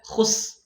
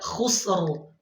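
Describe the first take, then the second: First: The final r is not heard at all. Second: The final r is clearly heard with vibration. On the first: The speaker calls it wrong. "Dia baca khus" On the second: The speaker calls it right. "Seharusnya dibaca khusr"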